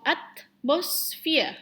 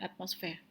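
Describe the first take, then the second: First: "atmosphere" slow and split, at-mos-feer; correct pronunciation shown. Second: "atmosphere" tossed off softly, ending in fair; wrong pronunciation shown. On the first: Teacher models it for the class, "atmosphere" slowly as at-mos-feer. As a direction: draw out "atmosphere", ending in feer. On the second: Teacher shows what it is not, "atmosphere" softly as at-mos-fair. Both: Shown as a demonstration. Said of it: "bukan atmosphere".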